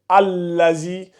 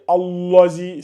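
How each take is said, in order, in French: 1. Le son L est léger, non emphatique. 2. Le son L est lourd et emphatique. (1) "le lam, là, j'ai dit tout à l'heure qu'il n'est pas, euh, comment on appelle ça, emphatique" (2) "fais attention à ne pas me lire Allazi"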